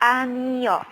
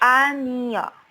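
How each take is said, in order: No difference in how they are said.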